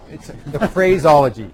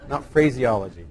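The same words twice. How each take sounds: First: "phraseology" said as fray-ZOL-ogy, loud and slow; emphatic, drawn-out "phraseology" without the extra ee; corrected pronunciation. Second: "phraseology" said as fray-zee-OL-ogy; "phraseology" in five syllables, phrase-ee-ology; mistaken pronunciation. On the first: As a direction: hammer out "phraseology" in four syllables, no ee after phrase. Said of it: "not phraseology". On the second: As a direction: put an extra ee into "phraseology", after phrase. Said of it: "I put the emphasis on the wrong syllable". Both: Shown as a demonstration.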